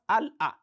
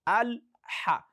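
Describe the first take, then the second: First: A glottal catch follows the l. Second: A breathy h follows the l. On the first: The speaker calls it wrong. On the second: The speaker calls it right. "Look at the transition between a, lam, and ha"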